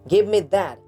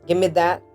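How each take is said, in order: First: 'Give me' is said fully and separately. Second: 'Give me' blends into one reduced form.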